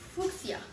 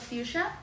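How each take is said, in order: First: The word has a non-Mexican variant pronunciation. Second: The word has its Mexican pronunciation. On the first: The speaker calls it wrong. "Y a algunas personas le dicen fucsia" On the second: The speaker calls it right. "En México se pronuncia fuchsia"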